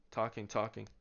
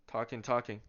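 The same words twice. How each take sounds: The two takes are said the same way.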